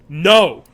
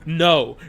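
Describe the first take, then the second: First: It is said loudly, like a yell. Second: It is said calmly, at normal volume.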